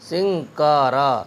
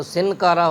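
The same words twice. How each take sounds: First: سنکارا slowly with ŋ joined to k, siŋ-kara; سنکارا blended and slow, sɪŋkaɾa; correct ghunna, slow. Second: سنکارا with a plain separate n, sin-kara; سنکارا mispronounced as sɪn-kara; wrong separated n. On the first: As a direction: draw out سنکارا with the nasal blended. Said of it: "صحیح ہے تین حرفوں کو ملا کر کے پڑھنا". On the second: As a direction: split سنکارا with a clear n. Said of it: "جو تلفظ غلط ہوگا". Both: Shown as a demonstration.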